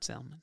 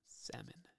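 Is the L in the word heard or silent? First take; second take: heard; silent. First: The L in the word is pronounced. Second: The L in the word is silent. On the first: The speaker calls it wrong. "Not salmon" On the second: The speaker calls it right. "He spelled it S-A-H-M-O-N"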